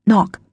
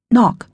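Both takes have the same delivery.

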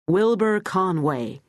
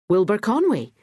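First: Slow, stretched American drawl on Wilbur Conway. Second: Said in the usual way. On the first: Acted. Wilbur introduces himself to Betty, slow American drawl. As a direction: lean into a lazy American drawl, drawing out Wilbur. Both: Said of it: "He said it in an American drawl".

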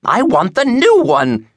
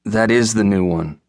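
First: Very high, slow, loud demanding wail; wailing old woman. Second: Calm, even reply under attack; surprisingly calm. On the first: Old woman demanding a book from clerk, wailing. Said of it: "she wailed". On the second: Poor clerk to wailing customer, surprisingly calm. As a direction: answer the tirade with unruffled patience. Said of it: "replied with surprising calm". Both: A narrator's reading.

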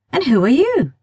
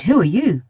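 First: And who are YOU with YOU high and falling; stress on you. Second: WHO are you, with WHO pushed and falling; stress on who. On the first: Girl demanding who the stranger is, stressing you. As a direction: lean on YOU, turning the question back. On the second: Boy turning her question back, stressing who. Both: Acted.

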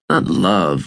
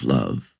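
First: Said in the usual way. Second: "love." dropped much lower and softer; knowing emphasis. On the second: A narrator's reading. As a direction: say "love." low and quiet, meaning the deeper kind. Narrator contrasts two kinds of love.

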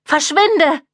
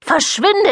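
First: „Verschwinde!“ high, cracking with fear; mother drives him off in panic; fear-distorted. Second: „Verschwinde,“ shrieked much higher; shrieking. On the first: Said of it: "Ihre Stimme klang vor Angst verzerrt". („Verschwinde!“ hoch und angstverzerrt) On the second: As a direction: screech it in panic. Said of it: "Ihr Ton steigerte sich zu einem Kreischen". („Verschwinde,“ schrill gekreischt, viel höher) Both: A narrator's reading.

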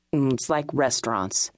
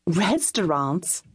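First: Lower, matter-of-fact man voice; flat statement. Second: Puzzled echo. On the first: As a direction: state it low and blunt. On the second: Puzzled echo of his word. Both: A narrator's reading.

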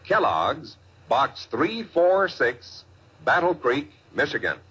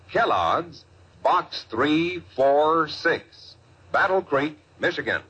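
No difference in how they are said.

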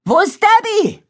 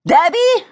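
First: High, loud worried cry; urgent shout. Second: High, loud call of a name; shouting. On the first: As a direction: shout the question across the rain. Katie yells for missing friend. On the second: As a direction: yell the name across the ditch. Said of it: "schrie Katie Benjamin zu". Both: A narrator's reading.

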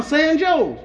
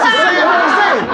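First: "San Joe's" with Joe's said like the English name; "Joe's" as one syllable, rhyming with "goes"; mispronounced San Jose. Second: "San Jose" with Jose said ho-ZAY; drawn-out "Jose" starting on an H sound; correcting the pronunciation. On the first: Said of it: "not Joe's". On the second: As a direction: say "San Jose" slowly, higher, with an H. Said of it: "pronounce them like they starting with an H". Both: Retold or imitated.

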